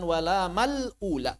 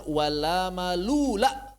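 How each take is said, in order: First: "wala malula" broken as "mal - ula"; wrong split reading. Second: "wala malula" with "malula" run together, long lu; correct linked reading. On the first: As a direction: stop on "mal", then start afresh on a long "ula". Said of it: "bukan wala malula". ("wala malula" dipenggal menjadi "mal - ula") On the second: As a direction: glide from ma straight into a long "lu" in "malula". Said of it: "Harusnya bacanya wala malula". ("wala malula" disambung, "lu" dibaca panjang) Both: Shown as a demonstration.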